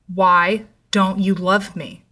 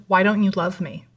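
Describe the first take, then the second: First: Slow, emphatic retold yell at normal volume; mild mock yell. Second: Understated serious question at an even pace; serious retold question. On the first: Ex-boyfriend repeats his question to her, restrained slow yell. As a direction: draw each word out insistently, only hinting at yelling. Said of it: "this time yelling". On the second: Ex-boyfriend turns serious and questions her love, sober and restrained. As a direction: ask it soberly, without raising the voice. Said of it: "his face goes serious again".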